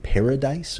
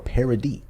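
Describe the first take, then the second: First: The word ends with an 'ice' sound, like 'dice'. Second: The word ends with an 'ee' sound, like 'dee'. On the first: "should we pronounce it paradise or paradis?" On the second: "should we pronounce it paradise or paradis?"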